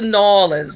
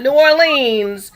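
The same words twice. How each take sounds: First: The city name is said the local way. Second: The city name is said the outsider way. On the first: The speaker calls it right. "For those who live in New Orleans, that's why they say it" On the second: The speaker calls it wrong. "not New Orleans"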